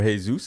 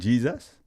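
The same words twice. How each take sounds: First: The name is said the Spanish way. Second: The name is said the English way.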